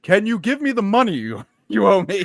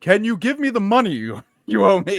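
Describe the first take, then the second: First: It is said in an exaggerated Indian accent. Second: The same.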